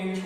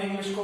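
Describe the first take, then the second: First: English broken into इंग, pause, लिश; a beginner's इंग... लिश, with a gap inside English; split into syllables. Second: Said in the usual way. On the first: Shown as a demonstration. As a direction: sound out English in two separate parts. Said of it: "तो हमने English को पढ़ा". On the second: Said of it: "नहीं पढ़ पा रहे हैं".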